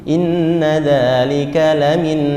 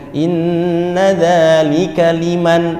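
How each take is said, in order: First: The L takes an a vowel, then min. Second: The L takes an i vowel, then man. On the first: The speaker calls it right. "tapi inna dzalika lamin azmil umur" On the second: The speaker calls it wrong. "Jadi bukan inna dzalika liman"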